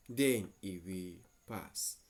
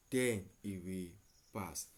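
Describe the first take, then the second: No difference in how they are said.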